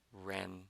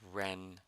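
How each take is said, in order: No difference in how they are said.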